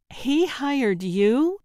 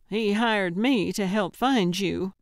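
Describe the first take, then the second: First: Slow, higher and louder disbelief; he hired YOU?, drawn out and rising in shock; "He hired you?" stretched slowly, pitch climbing; incredulous. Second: Said in the usual way. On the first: Acted. Samantha echoes in disbelief.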